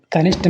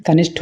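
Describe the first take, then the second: First: कनिष्ठ ending in "sht", no puff; unaspirated ṭa. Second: कनिष्ठ ending in "shth", with a puff; aspirated ṭha. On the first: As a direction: close कनिष्ठ on a plain ṭ. (कनिष्ठ के अंत में "ट" बोलें) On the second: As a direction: aspirate the last consonant of कनिष्ठ. (कनिष्ठ के अंत में "ठ" बोलें) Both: Shown as a demonstration. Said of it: "टा और ठा संबंधित".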